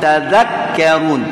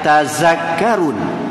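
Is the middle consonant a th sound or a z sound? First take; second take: th; z. First: The middle consonant is a voiced th. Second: The middle consonant is a buzzing z. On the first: The speaker calls it right. "pastikan zal" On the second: The speaker calls it wrong. "tidak ada tazakkarun, tidak ada z"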